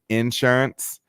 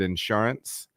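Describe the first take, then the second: First: The stress is on the first syllable. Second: The stress is on the second syllable. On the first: "people will hammer that first syllable" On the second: "I grew up saying the word insurance"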